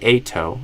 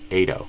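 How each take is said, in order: First: The T is a crisp, clear T. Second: The T is a quick, soft flap. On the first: "I could say ato as an option" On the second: "I have the option to do a flap T"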